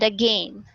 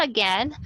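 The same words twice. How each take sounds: First: "again" with an AY diphthong, rhyming with "rain"; British pronunciation. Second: "again" with a short E, rhyming with "ten"; short E pronunciation. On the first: Teacher showing British English to students, "again" as "a-GAIN". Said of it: "British English, for example". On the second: Teacher showing the form not used in British English, "again" with short E. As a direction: say "again" as "a-GEN". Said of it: "pronounce not again, but again". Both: Shown as a demonstration.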